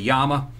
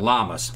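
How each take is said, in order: First: The word begins with a Y sound. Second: The word begins with an L sound. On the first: This is the proper way to say the name. The speaker calls it right. "the correct pronunciation is a Yama" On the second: This is how some people say the name. The speaker calls it wrong. "some people call it Llamas"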